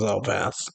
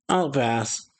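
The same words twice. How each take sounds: First: Pouting. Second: Said in the usual way. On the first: A narrator's reading. Woman turned down by her crush, pouting. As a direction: say it with a small, subdued pout. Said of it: "pouting, says".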